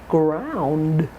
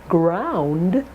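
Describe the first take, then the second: Both takes have the same delivery.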